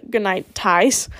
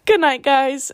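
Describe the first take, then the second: First: "Ties" said instead of "guys"; "good night, Ties" with a T sound where "guys" belongs; slip of the tongue. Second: Said in the usual way. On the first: Real, not acted. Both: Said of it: "good night, Ties".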